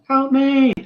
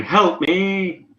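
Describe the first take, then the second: First: Very high, shrieked plea; mock scream for help. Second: High cry for help, not full volume; acted distant damsel's cry, pitched up; mock scream for help. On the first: Game master repeating the island woman's plea, higher mock scream. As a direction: push the acted cry right up into falsetto. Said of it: "It sounds like the Hello Neighbor scream". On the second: Game master voicing a woman on the island, mock scream. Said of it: "Along with another scream. This one, this time saying".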